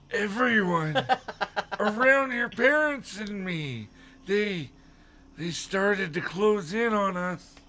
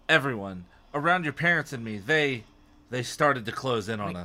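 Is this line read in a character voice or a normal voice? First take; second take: character voice; normal voice. First: It is read in a put-on character voice. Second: It is read in the reader's normal voice. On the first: The speaker calls it right. "Oh, sorry" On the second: The speaker calls it wrong. "You're not doing the voice"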